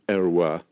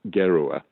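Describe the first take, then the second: First: The name begins with a vowel sound. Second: The name begins with a hard G sound. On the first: This is the family's French form of the name. "the French name" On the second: This is the Russian form of the name. "with a hard G"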